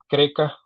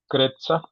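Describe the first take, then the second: First: The name is said with plain Spanish sounds. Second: The name is said with its original foreign sounds. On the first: "en castellano" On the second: "creo que así se pronuncia"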